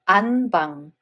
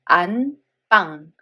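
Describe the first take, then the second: First: The second consonant is plain. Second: The second consonant is tense. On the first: The speaker calls it wrong. "instead of" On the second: The speaker calls it right. "so b sound becomes tensed. So we read it as"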